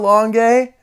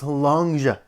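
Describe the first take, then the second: First: The name ends with an 'ay' vowel. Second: The name ends with an 'ah' vowel. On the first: The speaker calls it wrong. "I've been mispronouncing" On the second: The speaker calls it right. "It's actually just pronounced Lunga"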